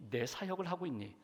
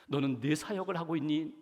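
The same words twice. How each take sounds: First: Near-whispered repeat of 내 사역을 하고 있니; echoed question, softer. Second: Said in the usual way. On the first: Retold or imitated. God repeats the question to John, fading softly. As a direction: let 내 사역을 하고 있니 fall away to a hush.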